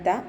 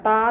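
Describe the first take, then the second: First: The consonant is said light and thin. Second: The consonant is said heavy and thick. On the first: The speaker calls it right. "Light ലെറ്റേഴ്സിൽ പെട്ടതാണ് ത" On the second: The speaker calls it wrong. "ത എന്ന് പറയരുത്"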